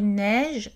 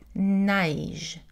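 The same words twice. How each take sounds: First: The vowel is steady, a single sound. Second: The vowel glides, sounding like a diphthong.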